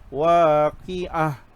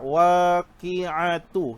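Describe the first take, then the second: First: The word ends with a soft h sound. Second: The word ends with a t sound and vowel. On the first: The reading stops at this word. "Itu bunyi huruf ha" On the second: The reading continues into the next word. "itu bersambung"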